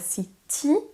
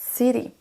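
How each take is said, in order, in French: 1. L'accent est sur la deuxième syllabe. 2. L'accent est sur la première syllabe. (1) "on ne dira pas city" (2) "On accentue sur la première syllabe"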